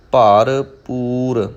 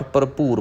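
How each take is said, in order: First: ਭਰਪੂਰ very slowly as two parts, "paar, poor"; split into pairs. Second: ਭਰਪੂਰ as one quick word, "parpoor"; run-together misreading. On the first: Shown as a demonstration. Teacher shows learners the careful reading, ਭਰਪੂਰ slow in two parts. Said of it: "ਦੋ ਦੋ ਸ਼ਬਦਾਂ ਦੇ ਜੋੜੇ ਬਣਾ ਕੇ". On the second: Retold or imitated. Teacher quotes how some readers say it, ਭਰਪੂਰ run together. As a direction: run ਭਰਪੂਰ together with a short first vowel. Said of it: "ਕਈ ਗੁਰਮੁਖ ਜਨ ਪਾਠ ਭਰਪੂਰ ਪੜ੍ਹ ਜਾਂਦੇ".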